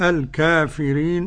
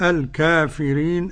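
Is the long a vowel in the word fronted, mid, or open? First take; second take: open; open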